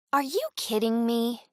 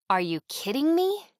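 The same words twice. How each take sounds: First: You hit, the rest kept level and fairly high; stress on you. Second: Me rising high at the end, whole line pitched up; rising incredulous question. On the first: Voiceover teacher demonstrating intonation, stressing you. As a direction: land the weight on you. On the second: Voiceover teacher demonstrating intonation, rising on me. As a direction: lift the question up onto me. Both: Shown as a demonstration. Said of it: "read a phrase in a few different ways".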